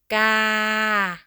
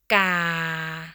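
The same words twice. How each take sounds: First: The pitch stays level in the middle. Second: The pitch stays low. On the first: "Ga is a middle tone" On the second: "Low tone"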